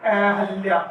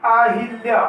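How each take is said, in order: First: अहल्या said a-hal-ya; plain a after ह in अहल्या; ha in middle. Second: अहिल्या said a-hil-ya; hi in middle. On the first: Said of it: "इसका शुद्ध रूप हो जाएगा". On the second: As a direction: sound a short i after ह in अहिल्या. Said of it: "तो ये अशुद्ध है". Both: Shown as a demonstration.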